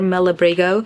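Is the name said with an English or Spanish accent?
English. It is said with an English accent. "I have probably said it with an English accent before"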